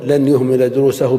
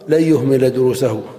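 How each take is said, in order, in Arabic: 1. تُنطق النون واضحة قبل الياء. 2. تُدغم النون في صوت الياء الذي بعدها. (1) "ولا تقول لن يهمل دروسه بالإظهار" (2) "ويجب أن تقول في الكلام"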